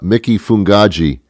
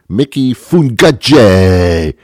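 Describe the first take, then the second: First: The name is said with a plain English accent. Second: The name is said with an Italian accent. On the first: The speaker calls it wrong. "You can't say it like that" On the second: The speaker calls it right. "You have to say the word in the vernacular of how it is meant to be said"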